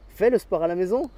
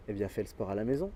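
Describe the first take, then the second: First: Louder and higher, pushing the point home; insistent coach. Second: Said in the usual way. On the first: Acted. Coach pressing a lazy friend to train, insistent louder order. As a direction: repeat the order with more force.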